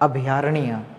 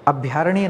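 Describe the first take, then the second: First: The 'bh' is said as a full syllable. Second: The 'bh' is clipped and pushed hard. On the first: The speaker calls it right. "भ पूरा बोलना है" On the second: The speaker calls it wrong. "भ पर ज्यादा जोर नहीं देना"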